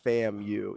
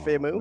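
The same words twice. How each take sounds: First: It ends with the letter name U. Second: It is said as one word rhyming with Shamu. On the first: The speaker calls it right. "and not FAMU" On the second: The speaker calls it wrong. "I was just making all one word, like"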